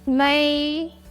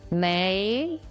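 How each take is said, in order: First: The pitch stays high and level. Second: The pitch rises from middle to high.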